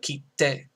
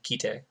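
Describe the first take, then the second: First: The t sound in the middle is held long. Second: The t sound in the middle is short. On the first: The speaker calls it right. "The emphasis is on te... you'd spell it K I T T E" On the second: The speaker calls it wrong. "I'm not saying kite. Because if I said kite, it would just be ki and te"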